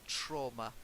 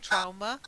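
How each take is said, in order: First: The word is said with the standard vowel. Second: The word is said with a nonstandard vowel. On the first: This is the usual way to say it. The speaker calls it right. "the standard pronunciation is trauma" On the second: Some people say it this way. The speaker calls it wrong. "I have heard people saying trauma"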